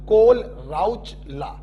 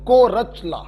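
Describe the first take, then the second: First: The name is said with an L sound. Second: The name is said without any L sound. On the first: "अगर सिर्फ एच को silent किया तो" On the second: "अगर एच और एल silent कर दिया तो"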